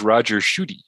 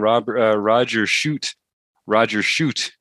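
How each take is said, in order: First: The surname is said as two syllables. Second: The surname is said as one syllable. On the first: The speaker calls it right. "his real name is Roger Shooty" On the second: The speaker calls it wrong. "I've been calling Roger Shoot"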